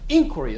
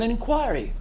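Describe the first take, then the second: First: It is said in an American way. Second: It is said in the speaker's usual non-American way.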